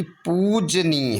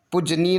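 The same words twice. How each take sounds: First: पूजनीय with a stretched poo; long oo. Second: पूजनीय said with short pu. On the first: Teacher correcting the spelling, पूजनीय with drawn-out poo. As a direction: hold both long vowels in पूजनीय. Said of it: "बल्कि पूजनीय होगा". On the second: Teacher showing the error, पूजनीय with short u. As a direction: keep the first u brief in पूजनीय. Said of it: "नहीं बल्कि". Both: Shown as a demonstration.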